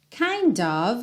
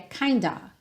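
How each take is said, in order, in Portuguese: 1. Ambas as palavras são ditas completamente, terminando em v. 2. As palavras são compactadas em kinda, sem o v. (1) "o som é de O V" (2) "bem abreviado, digamos assim, bem compactado"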